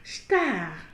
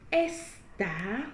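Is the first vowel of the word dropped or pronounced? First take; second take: dropped; pronounced. First: The initial e sound is dropped entirely. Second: The initial e sound is clearly pronounced. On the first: The speaker calls it right. "nous avons prononcé star" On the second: The speaker calls it wrong. "nous n'avons pas dit estar"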